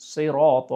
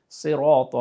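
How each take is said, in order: Both takes have the same delivery.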